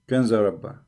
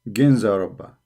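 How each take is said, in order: First: The name begins with a K sound. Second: The name begins with a G sound. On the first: "here they are pronouncing it Kanza Rabba" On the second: "they pronounce it as G"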